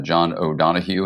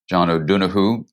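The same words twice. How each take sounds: First: The name is said with an American pronunciation. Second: The name is said with an Irish pronunciation. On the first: This is how the name is said in America. "in America, we call him" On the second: This is how the name is said in Ireland. "how to say his name properly"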